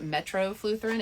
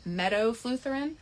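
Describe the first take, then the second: First: The word starts with metro, with an r sound. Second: The word starts with meto, without an r sound. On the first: The speaker calls it wrong. "I mispronounced it in my stories. I called it metrofluotherin" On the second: The speaker calls it right. "It's metofluotherin"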